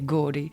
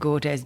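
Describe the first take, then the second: First: The name is said with French pronunciation. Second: The name is said with English-style pronunciation. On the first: "if you're French, then you'll just say Gordes" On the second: "if you pronounce it Gordes"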